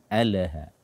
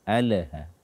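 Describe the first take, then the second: No difference in how they are said.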